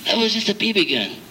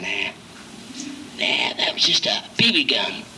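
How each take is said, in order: First: Said in the usual way. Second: Hushed, unvoiced whisper on "Nah, that was just a B B gun"; calm whispered reassurance. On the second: Pastor whispering comfort to a scared counselee. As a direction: soothe him under your breath. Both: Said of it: "I said".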